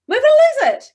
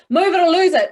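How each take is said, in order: First: Much higher, much louder excited burst. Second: Louder, higher forceful take. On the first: Coach contrasting an excited version with the forceful one. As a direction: shout it with big excitement. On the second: Coach contrasting two versions of the sentence. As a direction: push it out strongly. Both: Shown as a demonstration. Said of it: "compared to".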